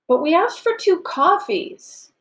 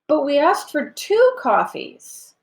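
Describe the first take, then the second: First: The stress falls on the word coffees. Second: The stress falls on the word two. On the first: They wanted coffee, not another drink. "we're correcting coffee for tea" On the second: They wanted two, not a different number. "Oh, I thought you wanted one"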